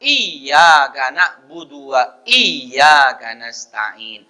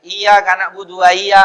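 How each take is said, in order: First: Slow chant with "Iya" held on a doubled y: "iy-ya"; corrected recitation, drawn-out "iy-ya" in each "iya"; repeated with tasdid. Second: "iya" with a single light y, not held; without tasdid. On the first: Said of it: "harus diulang". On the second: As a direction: run quickly through "iya" as "i-ya", no doubling. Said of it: "baca tidak tasdid". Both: Shown as a demonstration.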